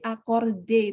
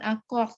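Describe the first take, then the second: First: The word ends with a clear final e vowel. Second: The word stops on the final d consonant. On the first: The speaker calls it right. "itu ada bunyi e" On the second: The speaker calls it wrong. "tidak berhenti di bunyi accord"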